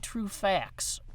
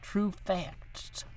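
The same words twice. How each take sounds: First: The word ends like "fax", with no T sound. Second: The word ends with a clearly sounded T. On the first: The speaker calls it wrong. "Like with an X" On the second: The speaker calls it right. "Spell it with a T"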